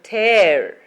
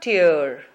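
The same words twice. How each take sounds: First: The vowel is the 'air' sound. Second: The vowel is not the 'air' sound. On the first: The speaker calls it right. "but tear ... So is the case" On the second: The speaker calls it wrong. "Not tear"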